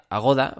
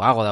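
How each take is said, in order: First: Agoda stressed on the middle syllable. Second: Agoda stressed on the opening syllable; stress on first A. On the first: Podcaster naming the hotel site, Agoda stressed on GO. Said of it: "o Agoda, o como se llame". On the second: Podcaster offering the other name, Agoda stressed on first A. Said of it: "o como se llame". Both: Shown as a demonstration.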